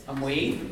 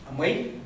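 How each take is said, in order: Both takes have the same delivery.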